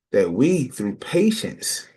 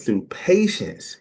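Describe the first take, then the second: First: Through patience stretched slow; slowed for emphasis. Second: Through patience repeated slow and weighty; slow repeated emphasis. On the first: Teacher drawing out a key word, slow. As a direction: lean on patience, slowly. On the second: Teacher repeating the phrase for the class, slow. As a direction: say it back slowly. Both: Shown as a demonstration.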